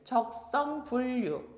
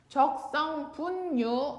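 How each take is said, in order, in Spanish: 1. Los sonidos se simplifican para hablar más fácil. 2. Cada letra se pronuncia como está escrita. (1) "para facilitar la pronunciación podemos decir" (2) "así está escrito"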